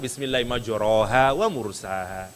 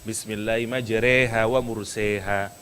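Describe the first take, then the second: First: Neither word's vowel is bent toward 'e'. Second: Both words' vowels are bent toward 'e'. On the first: "Atau dua-duanya yang normal" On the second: "Kenapa enggak dua-duanya imalah?"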